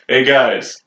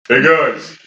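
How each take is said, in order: First: It is said without the put-on accent. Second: It is said in a put-on character accent. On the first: The speaker calls it right. "Do Ian without the accent" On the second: The speaker calls it wrong. "That's Ian"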